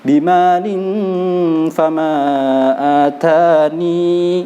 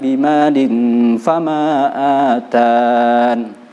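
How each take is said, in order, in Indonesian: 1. Kata terakhir berakhir dengan tambahan bunyi 'ni'. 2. Kata terakhir berakhir dengan bunyi 'n' saja. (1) "Yang kedua ditambah ya" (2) "Itu yang tidak ditambah ya"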